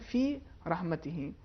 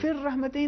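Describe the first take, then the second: First: The two words are kept apart. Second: The two words are merged into one. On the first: The speaker calls it right. "इसको अलग-अलग तलफ़ुज़ करें" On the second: The speaker calls it wrong. "इन्होंने इदगाम किया, जबकि यहाँ पे इदगाम नहीं है"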